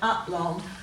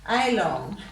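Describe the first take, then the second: First: The first vowel is a weak 'uh' sound. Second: The first vowel is a long 'ay' sound. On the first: "let's read them as we say them" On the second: "we should be giving it a long sound"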